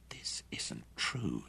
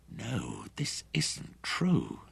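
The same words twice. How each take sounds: First: Slow, breathless whisper of disbelief; stunned whisper. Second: Slow, higher, voiced denial; a touch louder, denying. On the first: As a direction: barely breathe the words, in shock. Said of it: "he whispered". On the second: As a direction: say it out loud to undo it. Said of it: "He spoke louder". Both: A narrator's reading.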